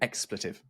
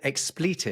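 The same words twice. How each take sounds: First: The middle vowel is short and reduced. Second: The middle vowel is a long 'ee' sound. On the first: This is the other speaker's American pronunciation. "I haven't heard expletive before" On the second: This is the usual British pronunciation. "I pronounce it expletive"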